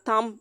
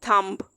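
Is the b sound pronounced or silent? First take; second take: silent; pronounced. First: The word ends at the m sound. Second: A b sound is pronounced at the end. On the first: The speaker calls it right. "यहाँ पे भी बी silent हो जाएगा" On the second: The speaker calls it wrong. "हम ये नहीं कह सकते थम्ब"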